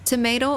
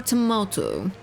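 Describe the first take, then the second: First: Tomato said tuh-MAY-toe; tomato with a long ay; tomato the American way, tuh-MAY-toe. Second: Tomato said tuh-MAH-toe; tomato with a broad ah; tomato the posh British way, tuh-MAH-toe. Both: Shown as a demonstration. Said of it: "Pronounce tomato".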